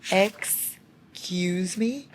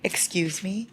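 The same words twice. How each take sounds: First: "Excuse me?" stretched very slow, rising at the end; drawn-out disbelief. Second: Breathless whisper: "Excuse me?" rising; stunned whisper, question lifting; whispered disbelief. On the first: Reader repeating her shock, slow and drawn out. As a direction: drag it out, stunned. Stunned by romantic line. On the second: Reader stunned by a romantic line, whispering. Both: Real, not acted.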